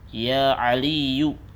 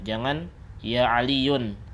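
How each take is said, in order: First: The name ends with a plain u sound. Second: The name ends with an un sound. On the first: The speaker calls it right. "Tapi apa? Ya Aliyu" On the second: The speaker calls it wrong.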